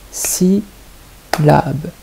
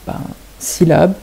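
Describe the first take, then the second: First: Syllabe split into si and lab with a pause, ending on a rise; teacher tapping out the syllables of syllabe; syllables clapped out. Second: Said in the usual way. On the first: Shown as a demonstration. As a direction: beat out syllabe one syllable at a time. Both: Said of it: "c'est quand on peut frapper les syllabes".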